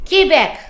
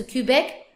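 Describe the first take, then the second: First: QUEBEC as "kay-BEK", loud and high; French pronunciation. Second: QUEBEC as "kyu-BEK"; English pronunciation. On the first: Teacher contrasting French with English, loud French pronunciation. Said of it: "but in French we pronounce". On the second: Teacher giving the usual English form, English pronunciation. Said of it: "we say Quebec". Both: Shown as a demonstration.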